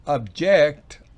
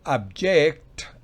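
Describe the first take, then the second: Both takes have the same delivery.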